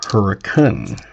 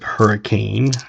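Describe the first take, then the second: First: It is said the way locals say it. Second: It is said the way outsiders say it. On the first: The speaker is from the area. The speaker calls it right. "It is pronounced hurricane" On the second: The speaker is not from the area. The speaker calls it wrong. "You do not pronounce it hurricane, or they will know you're not from the area"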